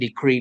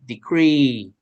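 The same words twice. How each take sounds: First: It has its usual stress and length. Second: Its stress shifts and it sounds longer.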